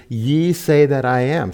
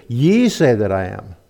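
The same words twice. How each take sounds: First: Said in the usual way. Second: Pointed emphasis on YE; stress on YE. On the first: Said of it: "it reads". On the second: Shown as a demonstration. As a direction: punch the word YE hard. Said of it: "So she added the inflection".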